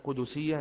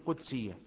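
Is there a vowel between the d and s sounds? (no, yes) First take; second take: yes; no. First: A vowel is sounded after the d. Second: No vowel is sounded after the d. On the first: The speaker calls it wrong. "تحريك الدال، وهذا ليس بصحيح. لا نقول" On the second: The speaker calls it right. "نقول"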